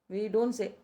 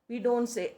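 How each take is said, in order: No difference in how they are said.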